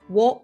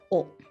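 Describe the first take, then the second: First: The particle begins with a w sound. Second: The particle is a plain vowel, no w. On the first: "I pronounce it wo sometimes" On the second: "officially it's o"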